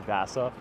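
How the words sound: The name is said with an American accent. The speaker calls it wrong. "with more of an American accent, people would say"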